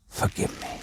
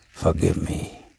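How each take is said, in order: First: Breathless, voiceless plea; fading whisper of a wounded man; whispered last plea; weak whisper. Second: Low, soft and feeble; a wounded man barely getting the words out; faint plea for forgiveness; weak voice. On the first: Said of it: "in a weak voice". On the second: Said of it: "said the bearded man in a weak voice". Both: A narrator's reading.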